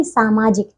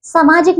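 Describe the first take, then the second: First: सामाजिक with a long first "saa", pitched low; correct pronunciation. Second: सामाजिक with a short first "sa"; mispronunciation. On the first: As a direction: hold the start of सामाजिक. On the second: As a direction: clip the start of सामाजिक: samaajik. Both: Shown as a demonstration. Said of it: "सामाजिक नहीं".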